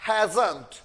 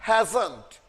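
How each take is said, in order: No difference in how they are said.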